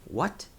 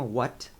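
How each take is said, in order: First: What thrown out higher with a sharp rise; blunt what. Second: Said in the usual way. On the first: Shown as a demonstration. Teacher showing students a rude reply, blunt rising question. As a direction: toss What back like you didn't catch it, bit rude. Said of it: "soa meio grosseiro". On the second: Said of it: "aí a gente tem what".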